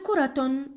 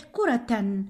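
First: كرة said "kuratun", with the t sounded; tanween damm ending. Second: كرة said "kuratan", with the t sounded; tanween fath ending. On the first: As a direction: end كرة in a clear "-tun". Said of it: "أضع تنوين الضم على التاء المربوطة". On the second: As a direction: end كرة in a clear "-tan". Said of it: "اكتب تنوين الفتح عليها تصبح". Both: Shown as a demonstration.

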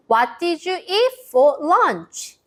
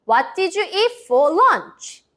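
First: Slow model phrase. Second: Very slow question pitched high; slow, high model question. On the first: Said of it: "라고 물어볼 수 있어요". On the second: Teacher modelling the question for kids to repeat. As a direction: spell the question out slowly. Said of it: "큰 소리로 따라해 볼까요". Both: Shown as a demonstration.

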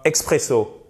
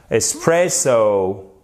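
First: EXPRESSO with a KS sound, French syllables; wrong X pronunciation. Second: ESPRESSO slowly, ES not EX, PRESS drawn out; pronounced with S. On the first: Teacher shows the mistake to avoid, X sound. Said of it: "Et c'est pas expresso". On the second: Teacher gives the correct word, S not X. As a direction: say ESPRESSO with S and a long stressed middle. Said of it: "il ne faut pas prononcer avec un X". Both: Shown as a demonstration.

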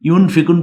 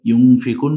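First: ইউনফিকুন with a plain tongue-tip n before fi; clear n. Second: ইউনফিকুন with n hidden as a nasal ng. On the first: Teacher shows the merely acceptable reading, clear n. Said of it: "বললেও হবে". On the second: Teacher shows the more correct reading, nasal ng. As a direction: turn the ন of ইউনফিকুন into a humming ng. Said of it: "বললে এটা বেশি শুদ্ধ". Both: Shown as a demonstration.

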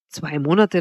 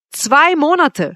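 First: Said in the usual way. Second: Slow, high, loud exclamation; crying out. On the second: A narrator's reading. Suitor hearing how briefly she could love him, crying out. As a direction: cry it out, aghast. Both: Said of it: "schrie ich auf".

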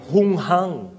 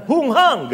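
First: Said in the usual way. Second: Hunghang yelled high and louder as an insult; shouted insult. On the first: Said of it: "Sa Tagalog". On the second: Acted. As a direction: hurl Hunghang at him like a furious brother. Brother insulting David.

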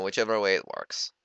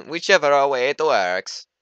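First: Said in the usual way. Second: Put-on loud, high, slow Mario accent; bad Mario accent. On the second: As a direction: do a hammed-up Mario accent, drawn out. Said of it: "That was a really bad Mario accent".

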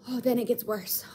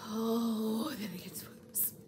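First: Said in the usual way. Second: Hushed, breath-only aside; ominous whisper. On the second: Real, not acted. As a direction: drop to a whisper to tease what comes next. Repeats teaser line, hushed.

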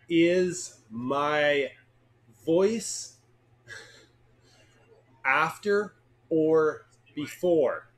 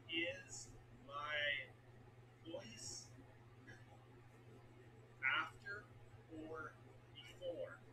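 First: Drawn-out loud question; slow and loud. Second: Slow near-whisper repeat. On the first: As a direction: stretch each word loudly. Loud slow test take. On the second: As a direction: breathe it out slowly and softly. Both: Shown as a demonstration.

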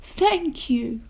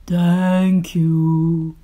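First: Grateful echo. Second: Slow, loud booming giant; deep, booming monster voice. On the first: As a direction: say it small and high, not booming. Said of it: "remembered what their big bad monster". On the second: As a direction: boom it out like a big monster. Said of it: "in a deep, booming voice". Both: A narrator's reading.

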